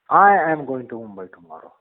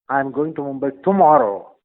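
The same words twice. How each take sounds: First: The stress falls on the word I. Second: The stress falls on the word tomorrow. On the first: The speaker personally goes, not someone else. "it is only I who is going to go and not somebody on behalf of me" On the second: The trip is on this day, not another day. "and by no chance day after tomorrow or some other day"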